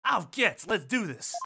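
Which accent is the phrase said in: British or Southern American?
Southern. It is said in a Southern American accent. "That's what a southerner sounds like"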